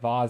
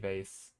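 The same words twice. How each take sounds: First: The word is said in a fancy, snobby way. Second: The word is said in a plain, ordinary way.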